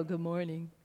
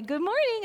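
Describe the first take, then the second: First: Much lower, soft and glum Eeyore; a sleepy teen's gloomy Eeyore morning. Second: Bright, higher cheerful good morning; a parent chirping at sleepy kids; cheery greeting. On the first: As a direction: mope it out like a gloomy donkey. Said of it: "Eeyore from Winnie the Pooh". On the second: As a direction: greet them sunnily. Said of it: "I'd say". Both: Retold or imitated.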